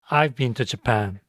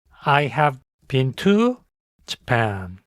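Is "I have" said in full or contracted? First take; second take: contracted; full. First: "I have" is contracted into one syllable. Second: "I have" is said as two full words. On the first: "짧게 대답할 때는 I have를 줄여서" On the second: "완벽한 문장으로 대답할 때는"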